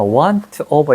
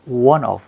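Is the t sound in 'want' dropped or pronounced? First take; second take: pronounced; dropped. First: The t is pronounced and the words are separate. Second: The t is dropped and the words are linked. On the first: "want of 이러는데" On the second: "연결해가지고 one of"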